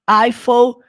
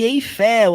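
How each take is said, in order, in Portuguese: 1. Eiffel é pronunciada com sons ingleses. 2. Eiffel é pronunciada com sons portugueses. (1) "Você vai falar Eiffel Tower" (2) "você não fala Eiffel igual você fala no português, Torre Eiffel"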